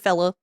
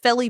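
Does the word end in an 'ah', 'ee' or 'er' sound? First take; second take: ah; ee. First: The word ends in an 'ah' sound. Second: The word ends in an 'ee' sound. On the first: "we also say fella too" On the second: "fella is felly or feller"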